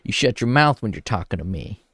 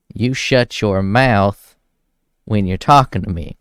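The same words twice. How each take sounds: First: Said in the usual way. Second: Louder, slow, each word laid down hard; mock stern yell. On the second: Quoting the singer scolding his wife, mock loud and stern. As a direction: bark the line out like the angry husband. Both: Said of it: "And he tells her".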